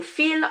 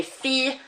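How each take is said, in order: First: Fille with a clear L at the end; wrong hard L. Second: Fille said as fee-y, no l; French ille sound. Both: Shown as a demonstration. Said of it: "I'm not saying fille".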